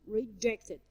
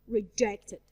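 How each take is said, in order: Both takes have the same delivery.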